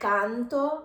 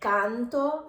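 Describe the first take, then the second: First: The mouth opens wide, exaggerated Italian style. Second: The same.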